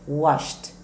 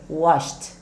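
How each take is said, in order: First: The ending is a short T sound. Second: The same.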